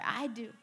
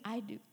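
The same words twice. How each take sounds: First: It is said the loudest. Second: It is said at normal volume.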